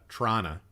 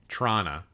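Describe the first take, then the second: First: Only the first T is pronounced. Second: The same.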